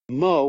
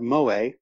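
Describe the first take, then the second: First: It sounds like the English name Moe. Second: It does not sound like the English name Moe. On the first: The speaker calls it wrong. "not to pronounce it like it's the barman in The Simpsons" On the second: The speaker calls it right. "to pronounce it correctly"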